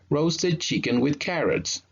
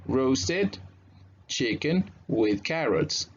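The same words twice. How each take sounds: First: The phrase is said quickly, at natural pace. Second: The phrase is said slowly and carefully.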